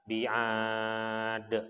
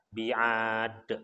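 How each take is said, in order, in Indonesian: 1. Vokal panjang ditahan selama empat harakat. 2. Vokal panjang ditahan selama dua harakat. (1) "Kalau misalkan empat harokat" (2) "Kalau kita biasa untuk memakai dua harokat, maka bi'ad pendek"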